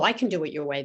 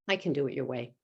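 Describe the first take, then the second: First: It sounds sincere and willing. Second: It sounds grudging and reluctant. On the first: The person genuinely agrees. "They don't say" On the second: The person does not really agree. "they say it in a tone that doesn't sound like they're going to do it"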